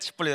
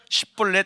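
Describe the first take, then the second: First: The first consonant is said plain, without tension. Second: The first consonant is said hard, like a tense sound. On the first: "그게 안 되고 십볼렛" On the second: "된소리처럼 쉽볼렛"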